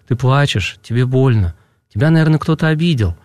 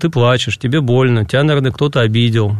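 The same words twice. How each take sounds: First: It is said warmly, with sympathy. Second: It is said flatly, without feeling. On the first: The listener truly shares the child's feelings. The speaker calls it right. "важно это сказать с чувством, с каким-то, с интонацией, с сочувствием" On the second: The words are recited by rote without real care. The speaker calls it wrong. "технически заученные фразы"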